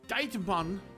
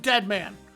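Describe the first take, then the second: First: The name is said with an odd, altered pronunciation. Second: The name sounds like plain English 'dead man'. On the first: "give it some weird fucking pronunciation" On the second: "so it's not just straight up Dead Man"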